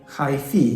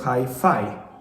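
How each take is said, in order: First: The second syllable sounds like fee. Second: The second syllable sounds like fie. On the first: This is how many Polish speakers say it. "people in Poland, so many of them, say" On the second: This is the usual English pronunciation. "instead of"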